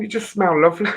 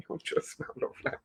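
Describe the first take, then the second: First: Said in the usual way. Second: Hushed, voiceless aside; whispered. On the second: Real, not acted. Host whispering to viewers how lovely the freshener smells, whispered. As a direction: whisper it quickly. Repeats the line under breath.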